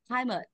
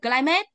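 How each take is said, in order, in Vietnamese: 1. Trọng âm rơi vào âm tiết thứ nhất. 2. Trọng âm rơi vào âm tiết thứ hai. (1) "chọn âm dây một, chỗ này là tiếp vị không nhận trọng âm" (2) "Đọc thế thì người ta không hiểu climate là cái gì luôn à?"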